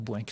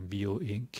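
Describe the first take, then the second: First: The name is said as one single syllable. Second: The name is said as several separate syllables. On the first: "Moi, je dis Boink parce que ça sonne bien" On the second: "est-ce que c'est Bio Inc"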